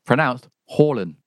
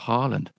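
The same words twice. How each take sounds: First: It has an 'or' vowel and no final D. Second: It has an 'ah' vowel and a final D. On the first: The speaker calls it right. "AA is pronounced O-R, or, and you don't say the D at the end of the word. So his name is pronounced Haaland" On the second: The speaker calls it wrong. "not Haaland"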